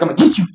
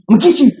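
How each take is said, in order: First: Said in the usual way. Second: Put-on higher and louder, teasing a crawling baby; playful chase voice. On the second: Dad teasing crawling son, playful rising chase voice. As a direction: chase the baby, gonna get you. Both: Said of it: "I'm like".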